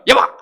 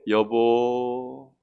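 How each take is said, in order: First: It is said tensely, with tight, raised breath. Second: It is said calmly, with relaxed breath.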